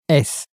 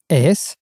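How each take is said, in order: First: The voice falls at the end, as a statement. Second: The voice rises at the end, as a question.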